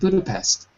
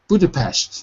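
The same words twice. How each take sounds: First: The final consonant sounds like plain s. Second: The final consonant sounds like sh. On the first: The speaker calls it wrong. "Not Budapest" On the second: The speaker calls it right. "if you want to say it right"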